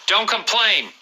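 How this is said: It is said in an angry tone.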